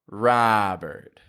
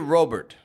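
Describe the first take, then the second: First: The first vowel is said with a wide-open mouth. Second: The first vowel is said with a less open mouth. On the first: The speaker calls it right. "We open the jaw wide" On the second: The speaker calls it wrong. "I've heard people say Robert"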